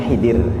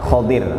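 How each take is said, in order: First: The first vowel sounds like 'i'. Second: The first vowel sounds like 'o'. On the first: The speaker calls it wrong. "Jadi menyebutnya Khidir. Hi pakai hi" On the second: The speaker calls it right. "Padahal yang benar adalah kho"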